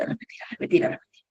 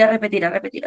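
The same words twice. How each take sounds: First: Fading to a whisper. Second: Said in the usual way. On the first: Shown as a demonstration. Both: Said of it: "empiezo a los cuarenta y cinco segundos a repetir".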